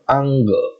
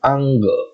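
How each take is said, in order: First: The N sound is only half pronounced. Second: The N sound is only half pronounced.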